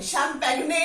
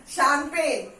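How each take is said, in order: First: शैंपेग्ने with the g and final e sounded; the wrong way, शैंपेग्ने; wrong spelling-pronunciation. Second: शैंपेन slowly, silent g, ending in n; the right way, शैंपेन, said slowly; correct pronunciation. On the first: (गलत उच्चारण, शैंपेग्ने) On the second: (सही उच्चारण, शैंपेन) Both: Shown as a demonstration. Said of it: "नहीं बोलते".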